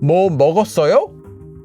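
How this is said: The verb carries the emphasis. It asks whether something was eaten. "if I put the emphasis on something else besides this word, that's usually going to be the verb"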